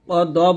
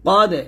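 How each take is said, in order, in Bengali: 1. শেষের d ধ্বনির প্রতিধ্বনি জোরালো এবং উপরে ওঠে। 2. শেষের d ধ্বনির প্রতিধ্বনি হালকা এবং নিচে নামে। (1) "ক দ বলবেন না" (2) "এই কলকলাটা পাতলা হবে ... কলকলা আওয়াজ নিচে নামবে"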